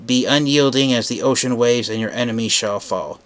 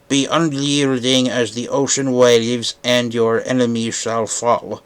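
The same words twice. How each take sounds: First: It is said in the speaker's normal voice. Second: It is said in a gurgly Sea Spray voice.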